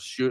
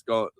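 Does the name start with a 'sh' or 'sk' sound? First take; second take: sh; sk. First: The name begins with a 'sh' sound. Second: The name begins with an 'sk' sound. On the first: The speaker calls it wrong. "I thought it was shoot" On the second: The speaker calls it right. "I guess it's pronounced Scone"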